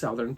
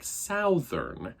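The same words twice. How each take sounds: First: The first vowel is a natural, unexaggerated ow. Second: The first vowel is an exaggerated, drawn-out ow. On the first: "it's southern uh, in my head" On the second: "it comes out more like southern, like there's more ow in it"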